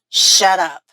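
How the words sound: It sounds angry and rude.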